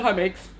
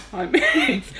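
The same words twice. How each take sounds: First: Low, softer offhand greeting; automatic greeting. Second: Imitated hello from someone busy typing; distracted repeat greeting. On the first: Retold or imitated. Colleague greeting each passer-by from her desk, automatic greeting. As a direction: toss off a routine hello, imitating her. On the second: Typing colleague greeting the same passer-by, distracted greeting. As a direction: lift the hello a little, imitating absent-minded politeness. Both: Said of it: "she's typing away and she's like".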